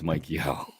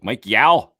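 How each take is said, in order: First: The surname is said with an 'oh' vowel. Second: The surname is said with an 'ow' vowel. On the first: The speaker calls it right. "come on, guys, it's Mike Yo" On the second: The speaker calls it wrong. "he's like"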